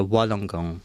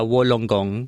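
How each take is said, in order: First: Wollongong with the first vowel between a and o, wah-long-gong; correct Wollongong. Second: Wollongong with a plain o, wol-long-gong; misread Wollongong. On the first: Speaker showing the right Wollongong. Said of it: "parang between A and O". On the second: Speaker recalling the old Wollongong. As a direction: say Wollongong with a round o. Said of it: "Yung pala dapat parang between A and O". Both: Shown as a demonstration.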